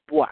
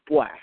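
First: It is said in a Jamaican Patois accent. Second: The same.

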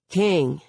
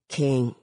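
First: The word is said more loudly. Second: The word is mumbled quietly. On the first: "Devante repeats louder" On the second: "he mumbles"

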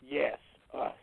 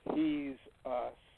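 First: The word begins with a Y sound. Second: The word begins with an H sound. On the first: "You pronounce it with a Y" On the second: "Pronounce it with an H"

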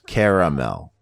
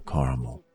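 First: The word is said with three distinct syllables. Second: The word is said smoothly in two syllables. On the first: The speaker calls it wrong. "it's like you're putting emphasis on three different syllables" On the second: The speaker calls it right. "it almost just sounds like it could be one floating syllable"

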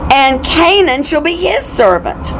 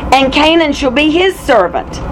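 The two takes are said the same way.

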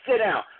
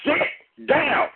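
First: The command is said softly, without force. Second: The command is said firmly, with force. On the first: The dog is not expected to obey. The speaker calls it wrong. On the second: The dog is expected to obey. The speaker calls it right.

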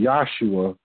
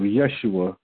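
First: The first syllable sounds like 'yah'. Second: The first syllable sounds like 'yes'. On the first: The speaker calls it wrong. "they say Yah" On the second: The speaker calls it right. "yes, Y-E-S, Yeshua"

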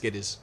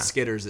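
First: The word ends without an r sound. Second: The word ends with a clear r sound. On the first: The speaker calls it right. "Technically it's ER, but you have to pronounce it with an H" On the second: The speaker calls it wrong. "they're not skitters"

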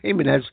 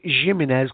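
First: The name is pronounced in a Spanish-like way. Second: The name is pronounced in a German-like way. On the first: The speaker calls it right. "but I think it's pronounced Jimenez" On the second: The speaker calls it wrong. "Some people pronounce it Jimenez because it's sort of German"

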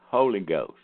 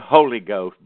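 First: Both words are said with even stress. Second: Heavy stress on 'Ho', the rest trailing off.

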